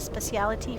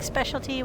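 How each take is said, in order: First: The word is said with four syllables. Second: The word is said with three syllables. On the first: This is how British people say it. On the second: This is the speaker's own usual form.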